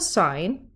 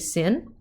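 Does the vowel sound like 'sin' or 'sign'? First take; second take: sign; sin. First: The vowel is long, like 'sign'. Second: The vowel is short, like 'sin'. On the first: The speaker calls it right. "it's still sine" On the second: The speaker calls it wrong. "we don't say sin"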